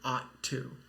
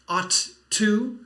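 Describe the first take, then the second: First: The words are linked with a single T sound. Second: Each word is said separately with two T sounds. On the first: "you put it together and say ought to. So you only need one T sound" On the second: "So it looks like ought to"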